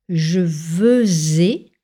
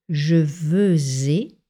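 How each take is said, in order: Both takes have the same delivery.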